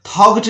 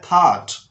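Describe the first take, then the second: First: थॉट wrongly said as "thog-t"; GH sounded. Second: थॉट as "thaat", no G; silent GH. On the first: Teacher warning students, GH voiced as G in थॉट. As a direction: put a hard G before the T in थॉट. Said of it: "थॉट नहीं पढ़ना है". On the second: Teacher giving the right reading, GH silent in थॉट. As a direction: go from vowel straight to T in थॉट. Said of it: "इसको पढ़ना है थॉट". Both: Shown as a demonstration.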